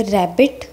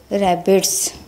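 First: Said in the usual way. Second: रैबिट्स ending on a clear hissed s; रैबिट्स said with a crisp s sound at the end; final s sound. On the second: Shown as a demonstration. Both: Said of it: "एस sound वाले words अब हम पढ़ेंगे".

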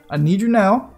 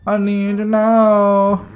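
First: Said in the usual way. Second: Slow, stretched, louder plea; drawn-out plea. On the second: Real, not acted. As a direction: drag out every word, pleading.

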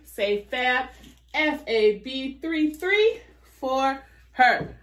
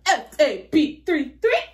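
First: Cheerleader. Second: Higher cheer with a laugh in it; hammed-up pep squad chant; cheerleader. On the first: Real, not acted. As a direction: chant the code like a cheerleader. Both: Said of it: "I sound like a cheerleader".

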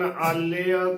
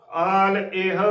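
First: ਆਲੇਹ run together as aal-leya; wrong pronunciation. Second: ਆਲ ਇਹ as long aal, then eh-ah; correct pronunciation. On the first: Teacher quotes a common misreading, wrong pronunciation. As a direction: say ਆਲੇਹ as one blurred word, aalleya. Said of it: "ਸੋ ਗਲਤ ਉਚਾਰਨ ਹੈ". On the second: Teacher corrects the misreading for listeners, careful pronunciation. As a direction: say ਆਲ ਇਹ with distinct aal and e-ah parts. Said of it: "ਇਸ ਦਾ ਸ਼ੁੱਧ ਉਚਾਰਨ ਹੈ". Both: Shown as a demonstration.

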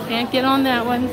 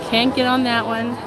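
The two takes are said the same way.

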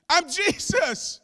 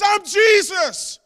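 First: Jesus' answer. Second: Loud, high, slow proclamation; Jesus' answer. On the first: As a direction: let the name land gently. Preacher repeats Jesus' answer. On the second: Preacher proclaiming Jesus' reply to Saul, loud and slow. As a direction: declare the name with full force. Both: Acted.

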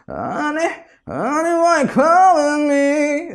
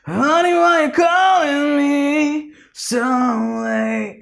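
First: High, slowed sung line pushed forward in the throat; sung, coach demonstrating pharyngeal placement; pharyngeal singing. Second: High, slow sung line, nasal and raspy; sung, coach demonstrating the combined sound; nasal raspy singing. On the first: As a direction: sing it from the pharynx, bright and forward. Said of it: "So something like that". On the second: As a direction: sing it through the nose with grit. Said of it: "together it goes like". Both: Shown as a demonstration.

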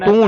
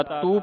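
First: ਤੂੰ as "tun", oo through the nose; nasalised vowel. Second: ਤੂੰ as plain oral "tu"; no nasal. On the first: Teacher showing student the mistake, ਤੂੰ with nasal oo. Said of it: "ਤੂੰ ਨਹੀਂ ਪੜ੍ਹਨਾ". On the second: Teacher showing student the reading, ਤੂੰ without nasal. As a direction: say ਤੂੰ with a clean oo, nothing after it. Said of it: "ਤੂੰ ਪੜ੍ਹਨਾ". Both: Shown as a demonstration.

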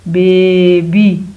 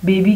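First: baby very slow and loud, first syllable held long; stretched-out blending. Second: Said in the usual way. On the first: Shown as a demonstration. Teacher blending sounds for pupils, stretched-out word. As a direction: hold the बे of baby, then land on बी.

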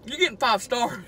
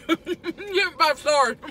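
First: Said in the usual way. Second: High, laughing and slower. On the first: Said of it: "repeated with laugh". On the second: Real, not acted. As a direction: laugh through the praise. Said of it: "repeat laughing".

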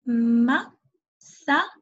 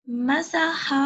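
First: "م-س-ح" as ma, sa, ha with long gaps; syllable by syllable. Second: "مسح" joined up as "masaha"; blended whole word. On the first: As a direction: sound out "م-س-ح" very slowly, each syllable separate. ("م-س-ح" مقطعًا مقطعًا ببطء) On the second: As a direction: run the syllables of "مسح" together into one word. ("مسح" كلمة واحدة موصولة) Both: Shown as a demonstration. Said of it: "كيف تصبح الكلمة كلها؟".

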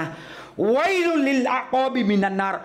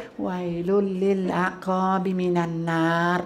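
First: Drawn-out, higher calling cry; loud calling out. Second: Said in the usual way. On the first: Shown as a demonstration. Preacher demonstrates the prophet's call, drawn out and raised. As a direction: stretch วัยลุล and call it out slowly. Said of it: "ใช้เสียงดังด้วย". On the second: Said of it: "ไม่ใช่นะ".

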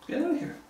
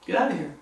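First: A thin, high echo of the demand; higher, quieter mocking repeat; high, soft mocking get out. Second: Said in the usual way. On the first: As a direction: pitch the third "Get out of here" way up but keep it soft. Repeat, pitched far up.

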